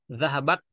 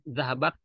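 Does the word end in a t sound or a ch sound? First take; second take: t; t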